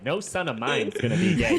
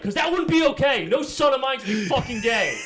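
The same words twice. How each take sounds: First: Campy gay-sounding dad. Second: High, loud Jersey dad warning; New Jersey accent. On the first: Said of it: "He sounded very gay". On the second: Dad warning son in New Jersey accent. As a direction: threaten like a brash Jersey father. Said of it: "I also gave him a New Jersey accent". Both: Retold or imitated.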